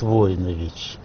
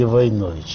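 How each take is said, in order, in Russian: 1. Ударение на первом слоге. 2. Ударение на втором слоге. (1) "там говорят Войнович" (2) "в Советском Союзе, всегда говорили Войнович"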